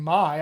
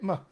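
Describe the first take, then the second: First: "my" with its full "eye" vowel, punched; clear, stressed "my". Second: "my" shrunk to "muh"; unstressed "muh" for "my"; reduced vowel. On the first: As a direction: say "my" fully, as "mai". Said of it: "rather than". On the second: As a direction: weaken "my" to a short schwa. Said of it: "I get". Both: Shown as a demonstration.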